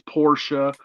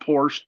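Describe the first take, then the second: First: The name is said the German way. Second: The name is said the English way. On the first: The speaker calls it right. "That's how the Germans say his name. It's Porsche" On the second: The speaker calls it wrong. "Don't call it Porsche. That'll piss everybody off"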